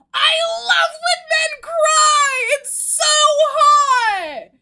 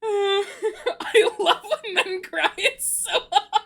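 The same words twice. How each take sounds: First: Much higher and louder, slowly shrieked; full fangirl outcry; excited shouting. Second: Slow, giggly, at usual loudness; giggling calmer retake; laughing. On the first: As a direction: squeal it in giddy delight. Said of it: "I got a little excited there". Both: Real, not acted.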